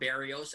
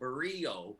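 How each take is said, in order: First: It does not sound like 'burrito' without the T. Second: It sounds like 'burrito' without the T. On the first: The speaker calls it wrong. "It is not Barrios" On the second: The speaker calls it right. "it is pronounced like burrito, but you take the T off"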